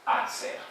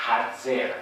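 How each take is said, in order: First: Hatzer unvoiced, the h dropped; wrong pronunciation. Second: Hatzer with an aspirated h at the start; correct pronunciation. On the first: Lecturer shows the incorrect Hatzer without aspiration. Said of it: "No decir". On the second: Lecturer models the correct aspirated h in Hatzer. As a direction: breathe out the h in Hatzer. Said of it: "hay que decir". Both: Shown as a demonstration.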